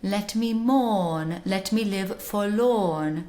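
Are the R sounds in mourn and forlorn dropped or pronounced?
dropped. A modern British accent with the R sounds dropped. "in a modern British accent, received pronunciation"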